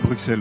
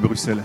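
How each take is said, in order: First: The name is pronounced the usual French way. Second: The name is pronounced the local Belgian way. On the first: The speaker calls it wrong. "On ne dit pas Bruxelles" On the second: The speaker calls it right. "on dit Bruxelles"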